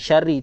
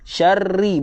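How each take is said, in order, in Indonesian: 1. Bunyi r pendek dan tunggal. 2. Bunyi r ditahan panjang dan digandakan. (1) "Bukan syari. Syari tak nak" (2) "Tunjukkan di sini ada dua huruf"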